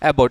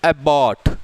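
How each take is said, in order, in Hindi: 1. b ध्वनि एक बार बोली जाती है। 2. b ध्वनि दो बार बोली जाती है। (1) "बोलना एक ही बार होता है" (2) "ऐसे नहीं एबॉट, ये बिल्कुल गलत है"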